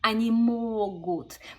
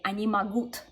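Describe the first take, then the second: First: The stress in могут falls on the first syllable. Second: The stress in могут falls on the last syllable. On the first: The speaker calls it right. "it's on the final syllable in the я conjugation, and then everything goes backwards" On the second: The speaker calls it wrong. "if you put the stress wrong on that word"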